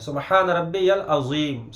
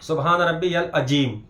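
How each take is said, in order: First: The last word is said with a z sound. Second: The last word is said with a j sound. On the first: The speaker calls it right. "बल्कि जेड से है" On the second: The speaker calls it wrong. "ये जे से नहीं है"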